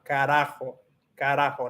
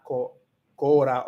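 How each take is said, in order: First: Carajo with an open A in the first syllable; starts with A. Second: Cora opening on a rounded O, "co"; O version. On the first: Learner correcting the word for viewers, A sound. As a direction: say carajo opening on "ca", not "co". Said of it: "empiezo con A, no O". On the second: Learner showing viewers the wrong vowel, O sound. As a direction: say cora with O in the first syllable. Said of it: "no O". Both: Shown as a demonstration.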